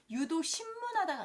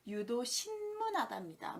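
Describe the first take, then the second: First: 유도 신문하다가 said as 심문, m closing 신; wrong form. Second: 유도 신문하다입니다 with a distinct n closing 신; correct form. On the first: Teacher showing what not to say, m sound. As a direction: merge 신문 into 심문 in 유도 신문하다가. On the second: Teacher giving learners the right term, careful n. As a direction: keep 신 and 문 apart with a clear n. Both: Shown as a demonstration. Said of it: "아니라 유도 신문하다입니다".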